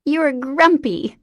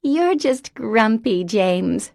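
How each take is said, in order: First: Higher, slower singsong tease; gleeful tease. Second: High, slow teasing repeat; childlike teasing. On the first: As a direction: lean into the tease with delight. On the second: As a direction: parrot the tease at her brother. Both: Acted. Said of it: "she repeated".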